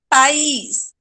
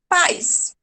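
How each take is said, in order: First: "País" as pa-IS, stress on the I; separated vowels. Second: "paz" as PAIS, one gliding syllable; said together. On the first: Teacher shows the hiatus, "País" with A and I apart. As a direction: split "País" into two syllables. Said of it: "O A separa do I". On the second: Teacher shows it without hiatus, "paz" as one-syllable pais. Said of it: "Se não fosse hiato". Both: Shown as a demonstration.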